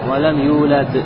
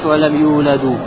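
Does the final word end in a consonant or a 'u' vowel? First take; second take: consonant; u vowel. First: The verb ends on a bare consonant. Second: The verb ends with a final 'u' vowel. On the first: The speaker calls it right. "а говоришь как? ... Сукуном" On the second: The speaker calls it wrong. "Не говоришь валам юладу"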